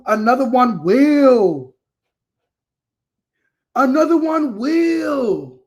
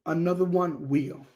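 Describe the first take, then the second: First: Loud, drawn-out holler; emphatic proclamation. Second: Softer, settled delivery; subdued restatement. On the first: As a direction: stretch it out and belt it with conviction. Emphatic repeated catchphrase to viewers. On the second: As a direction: let it drop quietly, matter-of-fact. Same catchphrase repeated, now subdued. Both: Real, not acted.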